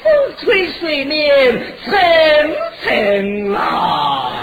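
The tune is brought down at the end.

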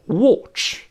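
It is said with a British accent. "英国人读出watch"

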